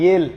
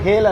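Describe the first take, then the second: First: The word begins with a Y sound. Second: The word begins with an H sound. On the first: The speaker calls it right. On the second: The speaker calls it wrong.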